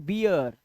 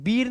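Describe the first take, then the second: First: The vowel glides as 'ee-ya'. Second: The vowel is a plain long 'ee'. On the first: The speaker calls it right. "अब से पढ़े बियर" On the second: The speaker calls it wrong. "बीर नहीं पढ़े"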